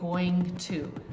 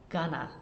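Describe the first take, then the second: First: The words are said fully and separately, more slowly. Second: The words are reduced and run together quickly. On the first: The speaker calls it wrong. "We don't say going to. That takes too much time" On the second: The speaker calls it right. "when we speak quickly, it sounds like gonna"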